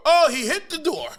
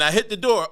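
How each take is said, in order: First: High, loud mock exclamation; hammed-up high-pitched echo; audience repeating the joke. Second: Said in the usual way. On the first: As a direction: parrot the punchline like a delighted spectator. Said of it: "they repeat the joke". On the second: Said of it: "but they repeat the joke".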